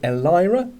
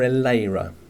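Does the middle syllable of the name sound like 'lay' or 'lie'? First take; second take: lie; lay. First: The middle syllable sounds like 'lie'. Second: The middle syllable sounds like 'lay'.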